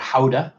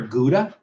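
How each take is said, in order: First: The word begins with a breathy H sound. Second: The word begins with a hard G sound. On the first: This is the proper way to say it. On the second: This is the way everybody says it.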